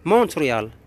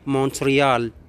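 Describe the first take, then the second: First: It is said the English way, T pronounced. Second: The same.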